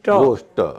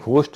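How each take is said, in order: First: It begins with a plain, unaspirated g sound. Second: It begins with a breathy, aspirated gh sound. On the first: The speaker calls it right. "वो गोश्त है" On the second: The speaker calls it wrong. "घोस्ट नहीं है"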